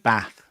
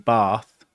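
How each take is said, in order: First: It is said in a northern English accent. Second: It is said in a southern English accent.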